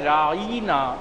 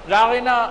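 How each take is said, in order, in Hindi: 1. अंतिम 'na' से पहले लंबा 'ee' स्वर सुनाई देता है। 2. अंतिम 'na' से पहले कोई लंबा स्वर नहीं सुनाई देता। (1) "जब ऐन और नून के दरमियान ये के साथ पढ़ा जाए" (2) "रागना अरबी के अंदर जब बोला जाता है"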